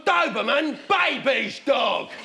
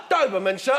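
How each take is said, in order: First: Scornful customer. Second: Lightly voiced shop assistant. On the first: Acted. Customer rejects the pet shop man's offer, mildly hammed-up scorn. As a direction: dismiss it, drawing out the last words. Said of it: "I've gone". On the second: Pet shop man answers a customer, lightly acted politeness. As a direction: offer it politely, a touch lower. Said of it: "Geezer gone".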